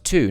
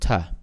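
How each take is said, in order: First: The word has a full, strong vowel. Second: The word has a weak, reduced schwa vowel. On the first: "it's in the strong form" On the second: "the reduced ter"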